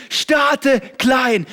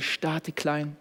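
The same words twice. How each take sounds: First: "starte klein" shouted high and loud; "starte klein" yelled like a rally cry; shouted slogan. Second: "starte klein" said slowly and softly; "starte klein" breathed out gently, very slow; soft slow slogan. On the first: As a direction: hammer "starte klein" out at full force. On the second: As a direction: let "starte klein" settle, slow and quiet. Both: Shown as a demonstration. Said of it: "repeated slogan".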